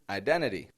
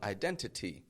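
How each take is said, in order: First: The T after the N is reduced away. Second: The T after the N is pronounced strongly. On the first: The speaker calls it right. "We reduce that" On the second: The speaker calls it wrong. "That's way too strong"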